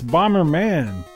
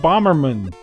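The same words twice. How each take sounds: First: The ending is said like in Superman. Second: The ending is not said like in Superman. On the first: The speaker calls it right. "It's Bomberman. Like Superman" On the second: The speaker calls it wrong. "you're saying Bomberman"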